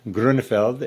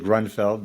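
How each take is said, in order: First: The name is said with a German pronunciation. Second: The name is said with an American pronunciation. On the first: "but it's" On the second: "In America, we would say"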